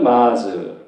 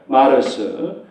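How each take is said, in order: First: It is said as one syllable ending in 'z'. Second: It is said as two syllables, 'mar-seu'. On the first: "발음이 약간 달라졌죠" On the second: "독일어식 발음이에요"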